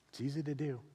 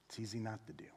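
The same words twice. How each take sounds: First: Said in the usual way. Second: Much softer. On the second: Shown as a demonstration. Pastor softly warning the congregation. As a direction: drop the voice, softer and lower. Contrasting doing and not doing.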